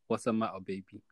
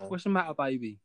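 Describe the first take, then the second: First: It is said in the speaker's ordinary accent. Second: It is said in an Essex accent.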